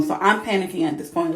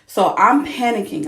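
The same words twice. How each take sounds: First: Said in the usual way. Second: Loud, urgent retelling of panic. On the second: Real, not acted. Mom telling friends about the C-section scare, loud and urgent. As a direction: push it out louder, reliving the alarm.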